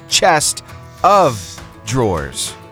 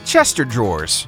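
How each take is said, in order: First: 'Chest' and 'of' are said as separate words. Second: 'Chest of' runs together to sound like 'Chester'. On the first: The speaker calls it right. "It's chest of drawers, right?" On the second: The speaker calls it wrong. "It's not Chester like a name, drawers"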